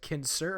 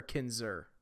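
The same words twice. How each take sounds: First: "Kinser" said with an unvoiced S in the middle; "Kinser", S sound not Z. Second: "Kinzer" said with a buzzing Z in the middle; "Kinzer", Z sound not S. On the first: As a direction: say "Kinser" with an S, like kin-sir. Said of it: "with a Z? Like a Z sound?". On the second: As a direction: say "Kinzer" with a Z sound, like kin-zer. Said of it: "we pronounce it more with a Z". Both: Shown as a demonstration.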